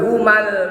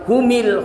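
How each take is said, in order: First: The m is followed by an a vowel. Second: The m is followed by an i vowel. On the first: "Nggak boleh humal" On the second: "atau humil"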